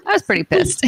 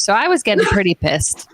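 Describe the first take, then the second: First: Much higher, mock-indignant repeat; mock exasperated. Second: Said in the usual way. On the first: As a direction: pitch it way up in fake outrage.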